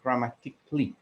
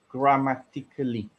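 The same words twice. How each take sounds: First: The ending is said as a short 'kli'. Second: The ending is said as a full 'ka-lee'. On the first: The speaker calls it right. "which should have been grammatically. So it is a K L I sound" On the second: The speaker calls it wrong. "I've also heard grammatically"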